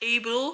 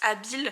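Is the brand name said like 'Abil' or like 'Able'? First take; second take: Able; Abil. First: It is said like the English word 'able'. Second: It is said with two syllables like 'a-bil'. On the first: This may be the brand's real pronunciation. "je sais pas si ça se dit Able" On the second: This is how the speaker personally says it. "moi je le prononce Abil"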